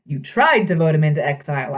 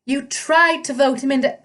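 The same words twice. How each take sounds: First: Said in the usual way. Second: High, satyr-voiced misread; wrong voice for Percy's line; satyr voice by mistake. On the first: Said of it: "that's Percy". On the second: A narrator's reading.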